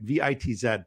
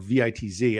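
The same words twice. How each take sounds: First: The last letter is pronounced 'zed'. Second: The last letter is pronounced 'zee'.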